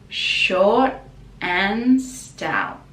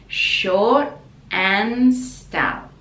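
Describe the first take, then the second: Both takes have the same delivery.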